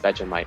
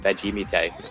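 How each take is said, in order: First: The ending sounds like 'mite'. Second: The ending sounds like 'meetay'. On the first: The speaker calls it right. "Vegemite is Vegemite" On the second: The speaker calls it wrong. "not Vegemite"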